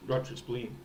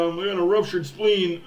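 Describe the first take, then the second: First: Said in the usual way. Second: A hint of a whiny player, "ruptured" falling; mock injured player. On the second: Fan mimics player claiming ruptured spleen, mild whine.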